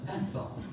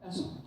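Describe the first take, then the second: First: The middle sound is a soft th. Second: The middle sound is a plain s. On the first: The speaker calls it right. "no, it's not Essel, it's Ethel" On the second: The speaker calls it wrong. "because I couldn't pronounce the T H's"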